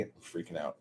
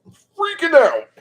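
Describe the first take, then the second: First: Hushed, much softer aside; quietly freaking out. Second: Very high, loud excited squeal; freaking out. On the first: Crafter about to staple the book, quietly freaking out. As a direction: say it small, under your voice. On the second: Crafter about to staple the book, squealing that they're freaking out. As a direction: burst into a giddy squeal. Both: Real, not acted.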